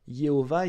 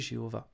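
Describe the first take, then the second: First: The name begins with a Y sound. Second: The name begins with a soft French J sound. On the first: This is the Hebrew form of the name. "le son J n'existe pas en hébreu, donc ce serait Yehoah" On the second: This is the French form of the name. "c'est uniquement en français"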